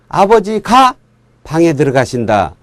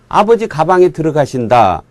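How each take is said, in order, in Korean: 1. 끊어 읽는 곳은 'ga' 음절 뒤입니다. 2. 끊어 읽는 곳은 'ga' 음절 앞입니다. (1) "이렇게 띄어서" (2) "이러면은 아버지가 무슨 그 가방 안으로 들어가는 것이 돼버리잖아요"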